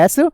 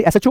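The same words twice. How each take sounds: First: एसएचओ split with gaps as "es, ech, o"; letter-by-letter pronunciation. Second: Said in the usual way. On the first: Shown as a demonstration. Teacher showing how it is pronounced, एसएचओ broken into letters. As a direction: draw out एसएचओ one letter at a time. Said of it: "उसको कुछ ऐसे बने". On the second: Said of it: "pronunciation जब इसका करेंगे".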